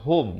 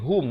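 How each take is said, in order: First: The vowel is an open o sound. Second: The vowel is a rounded u sound. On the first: The speaker calls it wrong. "Jangan kita baca macam H O M" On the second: The speaker calls it right. "H U M"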